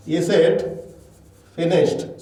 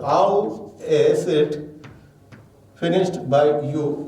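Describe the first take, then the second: First: Said in the usual way. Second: Slow, spaced-out reading of the full question; teacher dictating the question word by word; slow dictation. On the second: Shown as a demonstration. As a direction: read it slowly so students can copy. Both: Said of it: "So then question word".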